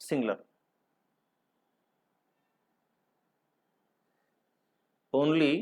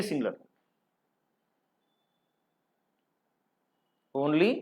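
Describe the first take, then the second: Both takes have the same delivery.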